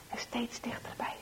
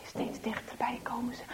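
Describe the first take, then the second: First: Whispered "steeds dichterbij". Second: Whispered "steeds dichterbij komen ze", stretched. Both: A narrator's reading. Narrator whispering the boys' creeping approach. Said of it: "repeated whispered phrase".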